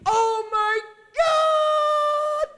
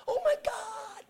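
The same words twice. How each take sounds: First: Full-force high, drawn-out shriek; retold scream. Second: High-pitched scream held back in volume; mock scream. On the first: Preacher re-enacts woman overwhelmed by the miracle, long piercing scream. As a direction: scream it slowly at the very top of the voice. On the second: Preacher echoes woman screaming in church, high restrained mock scream. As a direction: imitate a scream without the full volume. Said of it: "She screamed".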